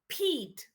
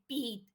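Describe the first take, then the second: First: The p has a puff of air. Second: The p has no puff of air. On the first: The speaker calls it right. "We say Pete" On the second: The speaker calls it wrong. "We don't say Pete"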